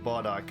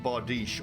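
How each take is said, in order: First: The word has a German-style pronunciation. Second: The word has its usual, non-German pronunciation.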